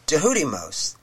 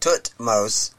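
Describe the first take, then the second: First: The name begins with a 'j' sound. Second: The name begins with a 'th' sound. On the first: The speaker calls it right. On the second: The speaker calls it wrong.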